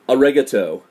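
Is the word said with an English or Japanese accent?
English. It is said with an English-sounding accent. The speaker calls it wrong.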